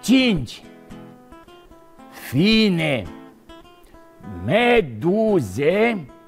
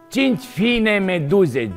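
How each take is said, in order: First: The phrase is spoken at a slow pace. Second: The phrase is spoken at a fast pace. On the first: "Îl spun mai rar" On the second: "Haideți să-l spunem mai repejor"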